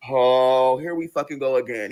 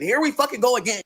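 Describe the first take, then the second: First: Low-pitched, weary “here we fucking go again”; low exasperation. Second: Higher-pitched, exasperated “Here we fucking go again”; high exasperation. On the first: Girlfriend facing another quarrel, low exasperation. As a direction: groan it out low. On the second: Girlfriend facing another quarrel, high exasperation. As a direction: lift it high in protest. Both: Acted.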